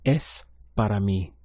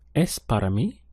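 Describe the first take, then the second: First: It is said as a statement. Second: It is said as a question.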